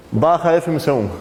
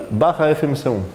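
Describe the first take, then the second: No difference in how they are said.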